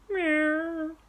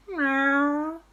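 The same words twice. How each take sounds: First: High meow, quieter and falling; a second, gentler kitten meow; softer meow. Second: High, rising cat meow; playful meow. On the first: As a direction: kids meowing again, more quietly. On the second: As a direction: meow back cheekily like a kitten. Boys answer aunt with animal noise. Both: Acted.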